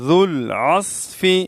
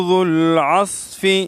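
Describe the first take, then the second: The two takes are said the same way.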